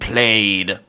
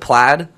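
First: Said literally as spelled, unlike the usual word. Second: Said like the usual word for checked cloth. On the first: It is treated as a band name, not a normal word. "you could be quite phonetic about it all" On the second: It refers to the checked pattern on clothing. "like the design on a coat or a sweater"

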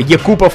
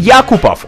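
First: The name is pronounced the Russian way. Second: The name is pronounced the English way.

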